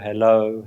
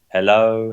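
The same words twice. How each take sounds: First: The word is said more quietly still. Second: The word is said a little more quietly. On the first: "gradually getting fainter and fainter" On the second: "gradually getting fainter and fainter"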